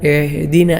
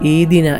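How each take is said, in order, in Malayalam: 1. h ഒരു മുറുകിയ തൊണ്ടശബ്ദമാണ്. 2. h ശബ്ദം പൂർണ്ണമായും ഒഴിവാക്കപ്പെടുന്നു. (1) "ഐ ഐനൊക്കെ പോലെ" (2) "ഹ ഇല്ലാത്തതുപോലെ"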